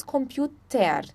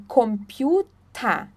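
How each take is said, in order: First: "computer" ending in "ter" with the R heard; ER sounded out. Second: "computer" slowly, ending in "ta" without R. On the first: Teacher showing what we don't say, "computer" ending in TER. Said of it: "Nós não falamos". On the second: Teacher correcting final ER, "computer" ending in a clean A. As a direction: say "computer" as "kompiu-TA". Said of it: "o E R tem som de A". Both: Shown as a demonstration.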